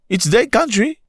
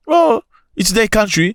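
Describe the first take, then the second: First: High mocking protest; mock indignant. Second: High slow Oh it's their country; slow mocking drawl. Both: Shown as a demonstration. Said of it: "You must go fix your country".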